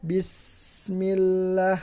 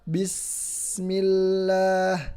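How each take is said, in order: First: The s sound is held and lengthened. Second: The s sound is held and lengthened.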